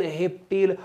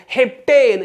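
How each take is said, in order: First: Said in the usual way. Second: heptane louder and higher, falling at the end; punchy classroom call; shouted drill. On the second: Shown as a demonstration. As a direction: call out heptane to lead a chant. Chants alkane against alkyl name.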